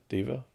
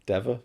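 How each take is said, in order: First: "Dever" with a long ee, DEE-ver; long-e pronunciation. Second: "Dever" with a short e, DEV-er; short-e pronunciation. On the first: Host trying the other version, "Dever" as DEE-ver. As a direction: say "Dever" to rhyme with fever. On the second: Host unsure of the actress's surname, "Dever" as DEV-er. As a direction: say "Dever" to rhyme with never. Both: Shown as a demonstration. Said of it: "I've heard her say Dever".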